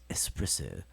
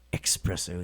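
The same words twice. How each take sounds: First: It is said with a plain s, no k sound. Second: It is said with a ks sound, like expresso. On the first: The speaker calls it right. "It's espresso. there's no X in espresso" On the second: The speaker calls it wrong. "It's not espresso. Put that X right in there where it shouldn't be"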